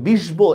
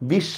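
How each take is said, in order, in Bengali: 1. sh-এর পরে b উচ্চারণ হয়। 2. sh দুইবার উচ্চারণ হয়, b নেই। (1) "এভাবে বলি না আমরা" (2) "শটাই আমি দুইবার উচ্চারণ করতেছি"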